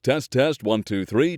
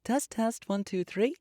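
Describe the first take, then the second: First: The voice is a low baritone. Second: The voice is an alto. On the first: "Baritone voices" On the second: "Alto voices"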